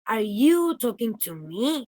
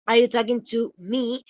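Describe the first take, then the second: First: The stress is on "you". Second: The stress is on "me".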